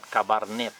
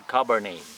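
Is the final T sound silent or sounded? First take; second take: sounded; silent. First: The final T is pronounced. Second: The final T is silent. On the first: The speaker calls it wrong. "Not Cabernet" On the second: The speaker calls it right. "you don't need to pronounce the letter T"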